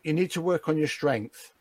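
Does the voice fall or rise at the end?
fall. The voice falls at the end. The speaker is reflecting back what was said. "now it's a reflection"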